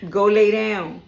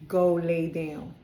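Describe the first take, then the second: First: Much louder order to a pet; loud command. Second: Slow, firm command. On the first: Reader ordering her pet away mid-reading, loud command. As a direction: send the dog off, full voice. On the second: Reader repeating an order to her pet, slow and firm. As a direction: GO LAY DOWN drawn out at normal volume. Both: Real, not acted.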